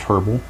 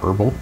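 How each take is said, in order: First: The first H sound is clearly pronounced. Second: The first H sound is dropped. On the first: The speaker calls it right. "I'm assuming the H is pronounced" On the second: The speaker calls it wrong.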